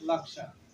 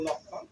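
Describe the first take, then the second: First: The word is said with Sanskrit pronunciation. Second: The word is said with Bengali pronunciation. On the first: "কিন্তু সংস্কৃতে হবে লাকসান" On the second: "বাংলায় বললে আমরা বলবো লক্ষণ"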